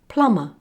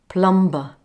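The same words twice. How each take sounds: First: The B is silent after the M. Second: The B sound is pronounced after the M. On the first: The speaker calls it right. "It's plumber" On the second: The speaker calls it wrong. "Did you say it like this? ... you said it wrong"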